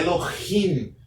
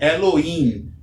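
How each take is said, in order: First: The middle h is a light breathy sound. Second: The middle h is not a light breathy sound. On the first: The speaker calls it right. "é Elohim, pois o re tem um som de um H levemente aspirado" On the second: The speaker calls it wrong. "não é Elohim"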